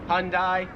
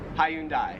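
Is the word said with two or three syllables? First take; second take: two; three. First: The word is said with two syllables. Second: The word is said with three syllables. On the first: "Americans make it like two syllables" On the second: "Australians, three syllables"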